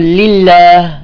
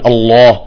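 First: The L and following vowel sound light and thin. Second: The L and following vowel sound heavy and deep. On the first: "أما إذا رققناها" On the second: "أما في الله نفخم اللام والألف"

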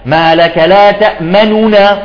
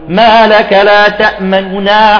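First: The u-vowel on the first n is fully voiced. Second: The u-vowel on the first n is barely hinted. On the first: The speaker calls it wrong. "ومن الخطأ أن تعطي ضمة كاملة" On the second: The speaker calls it right. "تعطي طرف بس"

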